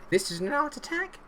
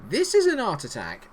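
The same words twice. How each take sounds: First: High questioning TV presenter voice; Neil Buchanan impression. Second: Confident presenter declaration, falling; Neil Buchanan impression. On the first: Streamer imitates Neil Buchanan announcing his team's creativity. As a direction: ask it like a kids' TV art host. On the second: Streamer repeats the Art Attack catchphrase as a statement. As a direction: announce it firmly like the TV host. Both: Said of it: "Neil Buchanan's back in charge".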